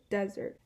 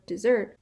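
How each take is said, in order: First: Desert, stressed on the first syllable DES. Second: Dessert, stressed on the second syllable SERT. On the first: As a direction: say desert as DEZ-ert, first syllable strong. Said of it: "the first syllable is stressed". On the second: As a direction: punch the end of dessert: de-ZERT, louder. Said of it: "the second syllable is stressed". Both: Shown as a demonstration.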